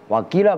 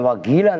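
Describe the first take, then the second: First: The middle consonant is a deep back q sound. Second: The middle consonant is a hard g sound. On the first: It means 'and it is said'. The speaker calls it right. "wakila bukan wagila" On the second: It sounds like calling someone crazy. The speaker calls it wrong. "bukan wagila ... Lah gila jadinya"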